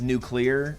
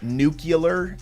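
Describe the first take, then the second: First: The word ends like new-clee-er. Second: The word ends like nucular. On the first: The speaker calls it right. "instead of nuclear" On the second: The speaker calls it wrong. "He says like nuclear"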